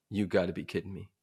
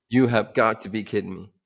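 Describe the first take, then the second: First: Low-key, soft incredulous grumble; muted disbelief. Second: "You have got to be kidding me", each word weighted, GOT punched; emphatic disbelief. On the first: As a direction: say it softly to yourself in disbelief. First, muted disbelief at the order. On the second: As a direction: repeat it firmly, leaning hard on "got". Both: Retold or imitated.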